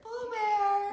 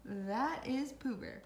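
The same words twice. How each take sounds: First: Sing-song call of the cat's name. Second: Said in the usual way. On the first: Real, not acted. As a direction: call her in like a star. Calling out to the arriving cat.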